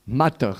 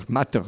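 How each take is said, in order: Both takes have the same delivery.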